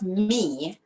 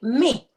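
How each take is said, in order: First: The word is said long and drawn out. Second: The word is said short and quick. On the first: "instead of me" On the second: "a quick me"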